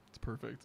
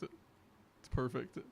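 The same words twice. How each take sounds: First: Said in the usual way. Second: It's perfect, dragged out very slow and savoured. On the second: Shown as a demonstration. Streamer admires the Dare shirt, slowly drawn out. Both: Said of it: "repeats it, then drawn out".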